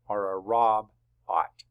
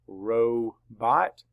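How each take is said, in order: First: ROB-OT mispronounced with short "o", split after b; closed syllable. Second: ROBOT slowly split ROE-bot, long "o"; open syllable. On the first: Teacher offers class the wrong split, short-vowel ROB-OT. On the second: Teacher asks where to draw the line, long-vowel ROBOT. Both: Shown as a demonstration. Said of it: "making an open syllable here".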